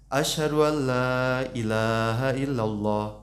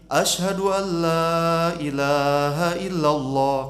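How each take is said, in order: First: It is said softly. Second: It is said loudly.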